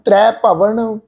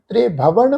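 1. ਪਹਿਲਾ ਸਵਰ ਚੌੜਾ 'ai' ਹੈ। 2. ਪਹਿਲਾ ਸਵਰ ਪਤਲਾ 'e' ਹੈ। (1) "ਇਸ ਢੰਗ ਨਾਲ ਪ੍ਰੋਨਾਉਂਸ ਨਹੀਂ ਕਰਨਾ" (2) "ਇਹ ਸ਼ਬਦਾਂ ਦਾ ਪਾਠ ਹੈ ਜੀ"

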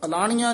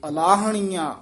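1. ਵਿਚਲੀ h ਧੁਨੀ ਛੱਡ ਦਿੱਤੀ ਜਾਂਦੀ ਹੈ। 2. ਵਿਚਲੀ h ਧੁਨੀ ਸਾਫ਼ ਉਚਾਰੀ ਜਾਂਦੀ ਹੈ। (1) "ਆਮ ਪਾਠੀ ਸਿੰਘ ਅਲਾਹਣੀਆਂ ਹੀ ਕਹਿ ਜਾਂਦੇ ਹਨ, ਹਾਹਾ ਛੱਡ ਹੀ ਦਿੰਦੇ ਹਨ" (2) "ਅਲਾਹ ਹਾਹਾ ਬੋਲ ਕੇ ਅਲਾਹਣੀਆਂ ਇਸ ਤਰ੍ਹਾਂ ਉਚਾਰਨ"

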